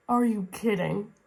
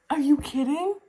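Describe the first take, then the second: First: Said in the usual way. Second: High-pitched squeal of disbelief; disbelieving. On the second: Real, not acted. Reviewer reacting to a romantic scene, squealing disbelief. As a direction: squeak it out incredulous.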